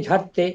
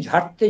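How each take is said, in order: No difference in how they are said.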